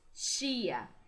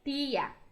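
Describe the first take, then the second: First: The t before i sounds like ch. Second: The t before i stays a plain t. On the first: This is the Brazilian Portuguese way. "Assim como o T, nós falamos tia" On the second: This is the Spanish way. "o T com o I vai ter som de ti"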